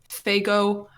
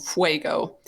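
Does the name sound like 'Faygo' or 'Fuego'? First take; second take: Faygo; Fuego. First: The name is said as 'Faygo'. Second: The name is said as 'Fuego'. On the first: The speaker calls it right. "What is this called?" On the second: The speaker calls it wrong. "I thought it was called Fuego, and the cashier uh, laughed at me"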